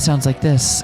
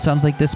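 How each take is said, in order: First: A breathy voice with no British accent. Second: A British accent with no breathiness. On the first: "Ava is just breathy" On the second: "Canon is just British"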